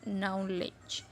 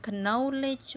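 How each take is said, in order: First: The first k sound is silent. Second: The first k sound is pronounced. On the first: The speaker calls it right. "K-nya hilang, tidak dibaca" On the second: The speaker calls it wrong. "Bukan knowledge"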